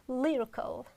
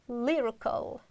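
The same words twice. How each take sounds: Both takes have the same delivery.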